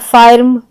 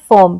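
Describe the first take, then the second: First: The vowel is a long open ah sound. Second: The vowel is a central er sound. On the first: The speaker calls it wrong. "ऐसे हम नहीं करते प्रोनाउंसिएशन" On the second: The speaker calls it right. "बल्कि हम कहते हैं"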